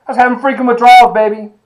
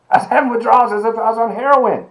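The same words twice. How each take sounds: First: Loud, high, fast outburst; fast, loud burst of disbelief at his own withdrawals; worked-up exclamation. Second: Said in the usual way. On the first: Real, not acted. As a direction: blurt it out all fired up. Excited retelling of his caffeine addiction.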